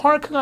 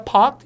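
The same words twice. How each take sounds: First: "park" with the R sounded; American R. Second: "parked" with no R, long vowel; R-less British. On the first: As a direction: say "park" with a clear r before the k. ('park'의 R을 살린 발음) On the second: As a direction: drop the r in "parked" and stretch the a. ('parked'의 R을 빼고 길게) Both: Shown as a demonstration. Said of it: "이것도 빠져요".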